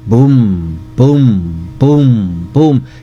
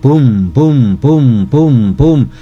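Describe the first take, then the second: First: The booms are said at a steady, slower pace. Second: The booms are said quickly, one after another.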